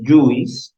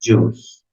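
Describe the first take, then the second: First: "Juice" read as written, "yu-is"; spelling pronunciation. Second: "Juice" as one syllable, "joos"; pronunciación correcta. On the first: Acted. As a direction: sound out the I in "Juice", making two vowels. ("Juice" mal dicho, como se escribe: "yuis") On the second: Shown as a demonstration. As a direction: say "Juice" with a silent I. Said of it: "vendría a ser la pronunciación". ("Juice" bien pronunciado, "yus", sin decir la "i")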